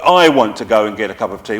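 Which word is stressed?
I. The stress is on the word I.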